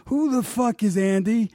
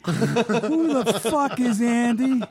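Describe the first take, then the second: First: Higher, outraged yelling as Super Dave; retold angry outburst; furious rant. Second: Higher still, dragged out in outrage; retold angry outburst, slowed down; slower furious repeat. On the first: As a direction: demand it in a pitched-up fury. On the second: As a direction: stretch every word out in disbelief. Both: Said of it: "he's just furious".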